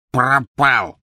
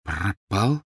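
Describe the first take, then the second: First: Higher blurted elf voice; elf's anguished answer. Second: Halting question, rising at the end; deflated echo. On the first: Elf forced to confess, anguished blurt. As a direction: blurt out the dreaded word. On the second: Boy repeating the elf's word, deflated. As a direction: echo it as your hope drains. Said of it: "повторил Гарри, чувствуя, как сникает весь его восторг". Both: A narrator's reading.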